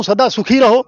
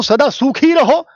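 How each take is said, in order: First: सुखी said with a quick short u; सदा सुखी रहो with a short, light u in सुखी; short vowel in सुखी. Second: सूखी with a long drawn-out uu; slow down and stretch the first vowel of सूखी; higher, slow सदा सूखी रहो, lengthening the uu in सूखी. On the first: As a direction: keep the first vowel of सुखी brief. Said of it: "तो जीवन सुखी रहे". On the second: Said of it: "उसका जीवन सूख जाए". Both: Shown as a demonstration.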